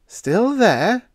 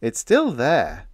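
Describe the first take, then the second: First: High, loud disbelieving rise; incredulous echo. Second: Slow, easy, unbothered; nonchalant drawl. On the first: Radioman echoes incredulously. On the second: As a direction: drawl it casually. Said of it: "drawled Biggs nonchalantly". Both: A narrator's reading.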